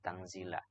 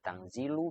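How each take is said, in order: First: The word ends with an 'a' vowel. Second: The word ends with a 'u' vowel. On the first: It commands reading what was sent down. "Kalau tangzila berarti e, maf'ul bih dari fi'il yang dibuang" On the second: It states that this Quran is sent down. "Kalau dibaca rofa tanzilul azizi, maka itu khobar dari mubtada yang dibuang"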